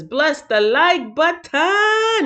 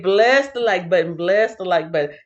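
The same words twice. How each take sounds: First: Slow, higher, stretched ending; theatrical read-out. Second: Said in the usual way. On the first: Acted. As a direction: draw it out with a flourish on the last word. Reads chat comment theatrically.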